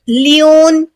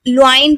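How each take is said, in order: First: The first vowel sounds like 'ee'. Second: The first vowel sounds like 'oo'. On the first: "बहुत से लोग लियोन ... पढ़ते हैं, तो दोनों बिल्कुल गलत है" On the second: "कोई लुआइन पढ़ते हैं, तो दोनों बिल्कुल गलत है"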